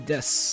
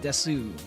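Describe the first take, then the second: First: The final u vowel is dropped. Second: The final u vowel is clearly sounded. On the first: "They'll they'll say des" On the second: "They won't say desu"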